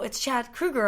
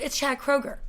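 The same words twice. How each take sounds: First: "Kruger" drawn out with an OO; Kruger pronunciation. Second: "Kroger" drawn out with a long OH; Kroger pronunciation. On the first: Singer disputing his own name, "[name]" as KROO-ger. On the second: Bar patron disputing the name, "Kroger" as KROH-ger. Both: Retold or imitated. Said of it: "argument over how to say".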